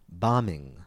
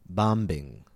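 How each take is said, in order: First: The B is silent after the M. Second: The B is released after the M. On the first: The speaker calls it right. "we say bombing" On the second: The speaker calls it wrong. "not bombing"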